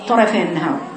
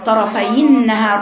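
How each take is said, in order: First: The kasra vowel on the ya is cut short. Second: The kasra vowel on the ya is fully pronounced. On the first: The speaker calls it wrong. "الخطأ يقع فيها عدم إتمام كسرة الياء" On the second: The speaker calls it right. "المفروض تقرأيها إزاي؟"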